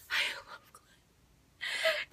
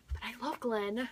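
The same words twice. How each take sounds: First: Whispered very high and very slow; breathy whispered confession. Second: Said in the usual way. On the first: Real, not acted. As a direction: let it out as a giddy secret.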